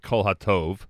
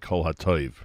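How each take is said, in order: First: The last word has a plain 'o' vowel. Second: The last word has an 'oy' vowel. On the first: The speaker calls it wrong. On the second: The speaker calls it right.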